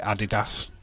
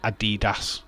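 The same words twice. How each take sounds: First: The name is said the German way. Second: The name is said the American way. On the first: The speaker calls it right. "the Germans who created Adidas call it Adidas" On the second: The speaker calls it wrong. "they call it Adidas"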